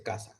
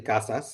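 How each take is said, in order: First: It is in a coastal Caribbean accent, final s dropped. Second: It is in an inland Mexico City accent, final s pronounced.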